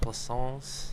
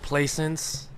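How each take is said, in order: First: The name is said the French way. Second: The name is said the American way.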